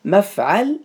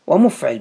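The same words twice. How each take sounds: First: مفعل sounded out "maf-ʕaal", a in both syllables; deliberate مفعل with open vowels, "mafʕal"; fatha on mim and ayn. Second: ومفعل said "wa-mufʕil", u then i; damma on mim, kasra on ayn. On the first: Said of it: "بفتح الميم وفتح العين". (مفعل بفتح الميم والعين: مَفْعَل) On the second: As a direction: punch out ومفعل as "wa-muf-ʕil". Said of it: "بضم الميم وكسر العين". (ومفعل بضم الميم وكسر العين: وَمُفْعِل) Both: Shown as a demonstration.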